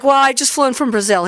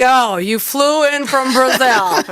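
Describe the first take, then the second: First: Said in the usual way. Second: Slow, drawn-out fake pity, imitating the coach; teasing echo stretched out to expose the complaint; mock sympathy. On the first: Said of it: "And she's like". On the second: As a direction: repeat it back like it's a tragedy, slowly. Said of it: "He's like".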